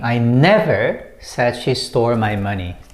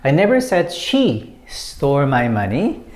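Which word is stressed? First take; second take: never; she. First: The stress falls on the word never. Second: The stress falls on the word she. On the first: It was never said at all. "when you put emphasis on the second word, never" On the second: It was not necessarily her who stole it. "When you put emphasis on she"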